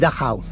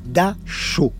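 First: It is said with German pronunciation. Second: It is said the French way, softened second syllable. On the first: "en allemand, c'est Dachau" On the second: "à la française... en mouillant la deuxième syllabe"

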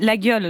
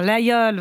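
First: The name is said with a hard g sound. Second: The name is said without a hard g sound. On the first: This is how a local producer said it. "il disait la gueule" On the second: This is the form locals accept. "j'ai fait vraiment attention à dire l'aïeul"

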